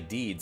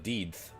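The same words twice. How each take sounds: First: The word is said in a lowered, deeper voice. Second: The word is said in the normal speaking voice. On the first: "dropped his voice for a second there to say deeds" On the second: "instead of deeds"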